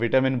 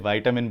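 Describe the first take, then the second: First: It is said with a British pronunciation. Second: It is said with an American pronunciation. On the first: "British pronunciation में इसे विटामिन बोलते हैं" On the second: "American pronunciation में इसे विटामिन बोलते हैं"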